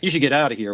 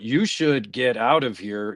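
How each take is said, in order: First: The words are run together naturally. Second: Each word is fully and carefully enunciated. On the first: The character sounds like a normal speaker. "which sounds very natural" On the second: The character comes across as dumb. "trying to say the whole words"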